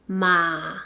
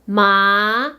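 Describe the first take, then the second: First: The pitch dips low, then rises. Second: The pitch rises from middle to high.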